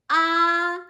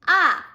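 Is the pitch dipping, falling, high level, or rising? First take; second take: high level; falling. First: The pitch stays high and level. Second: The pitch falls sharply from high to low. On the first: "the first tone is a high tone" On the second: "from the top down, falling tone"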